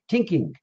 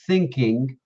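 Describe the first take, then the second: First: The word begins with a hard t sound. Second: The word begins with a soft th sound. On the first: "they say tink, tinking" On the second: "they don't say thinking"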